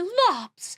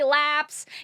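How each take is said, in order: First: The word is said with an O vowel. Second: The word is said with an A vowel. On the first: The speaker calls it right. "you have to say lops" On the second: The speaker calls it wrong. "you can't say laps"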